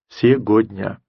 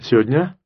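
First: Every syllable of the word is fully pronounced. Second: Some sounds in the middle are dropped. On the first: "который бы произнес все это слово целиком" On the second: "В лучшем случае говорите"

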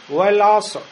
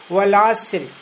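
First: The r and s sounds are full and heavy. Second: The r and s sounds are thin and light. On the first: The speaker calls it right. "здесь уже «ро» будет муфахан, потому что перед ним «сод»" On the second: The speaker calls it wrong. "Нельзя сказать «валасар»... Тогда у нас «сот» уже будет похож на «син»"

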